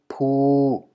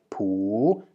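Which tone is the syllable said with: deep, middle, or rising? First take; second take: middle; rising. First: The syllable is said on a level middle tone. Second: The syllable is said on a rising tone. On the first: "there is no way to obtain a middle tone with a low, uh, with a high-class initial consonant" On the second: "The same is true for the rising tone"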